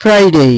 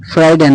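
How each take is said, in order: First: "ফ্রাইডে" as higher frai-dey; corrected pronunciation. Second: "ফ্রাইডে" as frai-de; wrong pronunciation. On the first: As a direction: model "ফ্রাইডে" higher, with a gliding "day". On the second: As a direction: say "ফ্রাইডে" with short unglided de. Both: Shown as a demonstration. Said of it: "ফ্রাইডে না".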